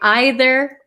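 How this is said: It is said the British way. "especially um, British people, I think, say either"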